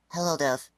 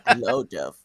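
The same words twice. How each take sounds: First: A lighter deep voice is used with less effort. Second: A strained, forced deep voice is put on. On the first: "less try, less effort" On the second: "let me try to do a Bell voice now"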